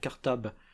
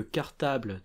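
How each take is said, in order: First: The final L sound is dropped. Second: The final L sound is pronounced.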